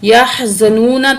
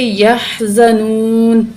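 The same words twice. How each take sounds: First: The word ends with a short a after n. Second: The word stops on a silent final n. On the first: "नून के ऊपर ज़बर है" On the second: "हम यहाँ पे आके ठहरे तो हम पढ़ेंगे यहज़नून"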